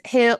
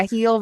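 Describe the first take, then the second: First: "hill" with a short I, as spelt. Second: "heel" for hill, with a long Appalachian ee. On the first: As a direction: keep the vowel short in "hill", not heel. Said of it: "the word hill with an I". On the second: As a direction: stretch the vowel to ee: "heel". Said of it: "can't pronounce the word hill". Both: Shown as a demonstration.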